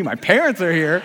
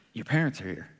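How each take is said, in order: First: Louder, disbelieving mock alarm; incredulous echo. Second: Low, soft retold message; quiet announcement. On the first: Waiter hearing his parents arrived, acted disbelief. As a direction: throw the news back in disbelief. Stunned repeat of the news. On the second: Co-worker to waiter hiding in the kitchen, low and quiet. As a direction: pass on the news quietly and matter-of-factly. Staffer quietly delivers news.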